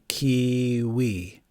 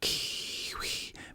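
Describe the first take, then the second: First: It is spoken in a normal voice. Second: It is whispered.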